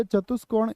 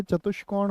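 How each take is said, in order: First: चतुष्कोण with plain s, "chatus-kon"; wrong pronunciation. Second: चतुष्कोण with sh, "chatush-kon"; correct pronunciation. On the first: Teacher quoting the faulty word to students, चतुष्कोण mispronounced with plain s. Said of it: "एकदम से गलत है". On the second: Teacher correcting students, चतुष्कोण pronounced with sh. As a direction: say चतुष्कोण clearly with a sh before k. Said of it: "चतुष्कोण होता है". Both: Shown as a demonstration.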